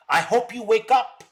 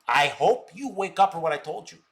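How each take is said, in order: First: Raised, louder plea; pushed hard, with the tune climbing on up; emphatic. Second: Said in the usual way. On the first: Real, not acted. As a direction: hammer it home to him, higher and louder. Lecturing a critic on stream.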